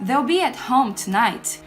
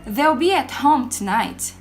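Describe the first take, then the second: First: Will is contracted and joined to they. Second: The same.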